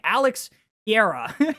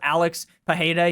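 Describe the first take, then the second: First: The surname is said as 'Piera'. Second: The surname is said as 'Pajeda'. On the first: The speaker calls it wrong. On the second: The speaker calls it right.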